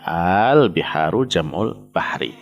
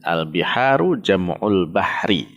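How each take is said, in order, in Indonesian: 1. Vokal pertama dibaca panjang. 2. Vokal pertama pendek.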